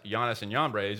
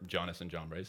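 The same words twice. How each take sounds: First: The names begin with a soft J sound. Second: The names begin with a hard J sound.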